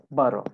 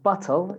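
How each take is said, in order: First: "bottle" with the T softened to a D; "bottle" the American way, quick tap in the middle; American tapped T. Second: "bottle" with a crisp, fully pronounced T; "bottle" the British way, T not softened; British hard T. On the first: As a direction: say "bottle" like boddle. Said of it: "it becomes like a D sound". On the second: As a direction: say "bottle" with a clear T sound. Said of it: "it's not bottle". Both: Shown as a demonstration.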